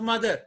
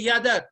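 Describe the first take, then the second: First: The word begins with an m sound. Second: The word begins with a y sound. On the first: The speaker calls it right. "not mother" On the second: The speaker calls it wrong. "you will say yadar"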